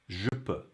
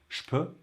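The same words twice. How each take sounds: First: The je keeps a voiced zh sound. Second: The je becomes a voiceless sh sound. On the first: "if I say the sounds separately" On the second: "in everyday French"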